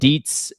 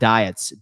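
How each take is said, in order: First: The vowel sounds like 'ee'. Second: The vowel sounds like 'eye'. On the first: The speaker calls it right. "it's pronounced Deets" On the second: The speaker calls it wrong. "not diets"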